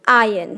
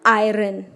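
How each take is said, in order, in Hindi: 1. इस शब्द में र की आवाज़ सुनाई नहीं देती। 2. इस शब्द में र की आवाज़ सुनाई देती है। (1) "इसको इंग्लिश में हम आयन कहते हैं" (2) "क्या आयरन सही प्रोनाउंसिएशन है? नो"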